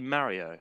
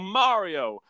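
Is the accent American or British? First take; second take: British; American. First: It is said in a British accent. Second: It is said in an American accent. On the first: The speaker calls it right. "We actually say it properly. We say Mario" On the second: The speaker calls it wrong. "That's what I hate about American accents. They're like, oh"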